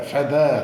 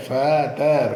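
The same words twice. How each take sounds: First: Said in the usual way. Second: feather broken into ഫെ, then ദർ; split into syllables. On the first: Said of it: "പിരിച്ചു പറയുമ്പോഴേ". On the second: Shown as a demonstration. Teacher splitting a word for pupils, syllable by syllable. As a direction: stretch ഫെ, then a separate ദർ in feather. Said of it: "എങ്ങനെയായിരിക്കും പിരിച്ചു പറയുമ്പോഴേ".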